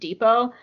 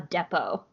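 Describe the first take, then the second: First: It is said with an American pronunciation. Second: It is said with a British pronunciation. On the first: "I'm so used to hearing the word depot" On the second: "someone pronounce it a depot"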